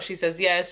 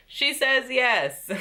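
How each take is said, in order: First: Said in the usual way. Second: High, slow and gleeful; excited reveal. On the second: Retold or imitated. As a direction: drag out the good news with delight. Recapping the proposal answer.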